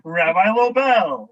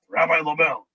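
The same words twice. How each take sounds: First: The name is said warmly, as if smiling. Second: The name is said sourly, as if frowning. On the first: People think well of the person. The speaker calls it right. "you want to say" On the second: People think poorly of the person. The speaker calls it wrong.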